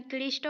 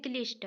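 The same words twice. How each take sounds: First: क्लिष्ट as Odia "klishto"; full vowel after the final t of क्लिष्ट; Odia-style open ending on क्लिष्ट; Odia pronunciation. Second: क्लिष्ट as Hindi "klisht"; Hindi-style closed ending on क्लिष्ट; Hindi pronunciation. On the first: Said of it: "Odia में क्लिष्ट बोलते हैं". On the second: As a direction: end क्लिष्ट on the t. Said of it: "और हिंदी में क्लिष्ट". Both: Shown as a demonstration.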